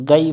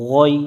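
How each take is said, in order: First: "গাই" with open a and light g; thin wrong ghain. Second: "গই" heavy, with rounded o vowel; thick ghain. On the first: Retold or imitated. Teacher showing what to avoid, "গাই" thin and open. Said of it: "গাই পড়া যাবে না". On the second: Shown as a demonstration. Teacher correcting the reading, "গই" pronounced thick. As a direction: make "গই" full and throaty, rounded. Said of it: "আমরা মোটা করে নিব".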